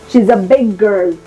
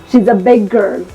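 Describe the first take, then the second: Both takes have the same delivery.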